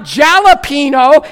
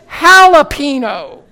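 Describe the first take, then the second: First: Jalapeno with a j as in jam, JAL-a-pee-no; mock anglicised jalapeno; wrong jalapeno. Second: Jalapeno as hah-lah-PAY-nyo, j as h; Spanish jalapeno. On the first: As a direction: say jalapeno as spelled, hard j. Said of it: "It's not jalapeno". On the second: Shown as a demonstration. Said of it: "it's jalapeno".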